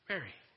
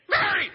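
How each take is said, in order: First: The name is said softly. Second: The name is yelled loudly.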